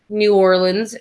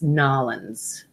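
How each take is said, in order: First: The name is said in full, syllable by syllable. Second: The name is squeezed into two short syllables. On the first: The speaker calls it wrong. "I said it wrong" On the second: The speaker calls it right. "It's Nolans"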